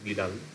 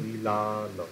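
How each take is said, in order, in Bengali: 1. মাঝের ব্যঞ্জনটি flapped r-এর মতো ধ্বনি। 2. মাঝের ব্যঞ্জনটি পরিষ্কার l ধ্বনি। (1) "তোমরা হয়তো এরকম বললে বিড়াল" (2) "ল লটা বিলাল"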